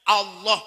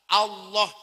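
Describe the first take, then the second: Both takes have the same delivery.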